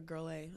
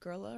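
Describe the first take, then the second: First: The name is said as 'girl' plus letter A. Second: The name is said as one blended word. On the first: "girla or girl A?" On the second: "girla or girl A?"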